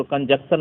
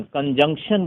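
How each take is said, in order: First: कंजक्शन said without the nasal, a plain k, kun-juk-shun; common mispronunciation. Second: कंजंक्शन said with a clear nasal ng before the k, kun-jung-shun; correct pronunciation. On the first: Teacher imitating students who say कंजक्शन without the ng. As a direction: drop the ng in कंजक्शन, the wrong way. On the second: Teacher modelling कंजंक्शन for students with a clear ng. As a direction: sound the ng in कंजंक्शन, not kun-juk-shun. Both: Shown as a demonstration. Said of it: "कंजक्शन नहीं बोलना है".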